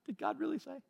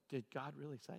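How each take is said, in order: First: Much higher, softer mocking "did God really say?"; mock doubt. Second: Low, much softer insinuating devil's voice; devil's whisper. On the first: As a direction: whine the doubt in a high put-on voice. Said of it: "It's like". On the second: Retold or imitated. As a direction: sow doubt like a tempting devil. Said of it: "you could hear the devil going".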